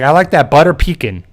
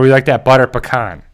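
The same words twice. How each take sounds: First: "pecan" said PEE-can, like dad does; mock dad saying "pecan" as PEE-can; gently teasing dad's PEE-can; imitating dad. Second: "pecan" said pe-KAHN; "pecan" with the stress on KAHN; the correct pe-KAHN after dad's version. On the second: Retold or imitated. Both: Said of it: "my dad can't really speak correct English".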